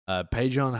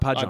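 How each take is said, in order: First: The name is said with a French accent. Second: The name is said plainly, without a French accent. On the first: "that French accent" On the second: "how do you normally pronounce his name?"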